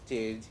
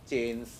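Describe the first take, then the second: No difference in how they are said.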